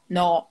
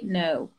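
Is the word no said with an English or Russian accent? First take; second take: Russian; English. First: It has a flat Russian-style vowel. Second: It has a gliding English-style vowel. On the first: The speaker calls it wrong. "это русский" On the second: The speaker calls it right. "По-английски no"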